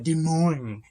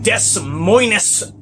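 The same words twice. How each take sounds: First: The name is said with silent letters. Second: The name is said as it is spelled. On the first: This is the way the locals want it said. "If you want me to call it Des Moines" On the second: The name should be read as it is written. "Yes, that's how I say it"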